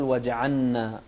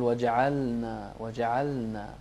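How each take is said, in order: First: وجعلنا with L merged into N, like وجعنّا; the mistaken merged L; wrong pronunciation. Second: وجعلنا with a clear L before the N; tongue slightly right for the L in وجعلنا; correct pronunciation. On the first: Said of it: "لا تقول". (إدغام خاطئ للام) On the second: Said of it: "لا، قل". (لام واضحة في وجعلنا) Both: Shown as a demonstration.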